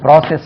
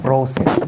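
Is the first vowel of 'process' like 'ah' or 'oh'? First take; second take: ah; oh. First: The first vowel sounds like 'ah'. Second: The first vowel sounds like 'oh'. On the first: The speaker calls it wrong. "அது ப்ராசஸ் அல்ல" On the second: The speaker calls it right.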